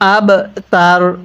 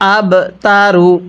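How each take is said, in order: First: The word ends on the consonant r. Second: The word ends with a final u vowel. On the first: The reader stops at this word. "ওয়াকফ করলে আব তার" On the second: The reading continues without stopping. "রপেশ রু"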